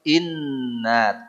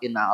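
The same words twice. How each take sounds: First: The nasal n sound is held long. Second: The n sound is short and rushed. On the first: The speaker calls it right. "Tahan, jangan tergesa-gesa" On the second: The speaker calls it wrong. "Kita mah inna a'toina wae. Inna a'toina bukan gitu"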